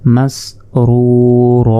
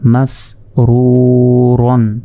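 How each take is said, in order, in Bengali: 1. শব্দটি দীর্ঘ a স্বরধ্বনি দিয়ে শেষ হয়। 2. শব্দটি n ধ্বনি দিয়ে শেষ হয়।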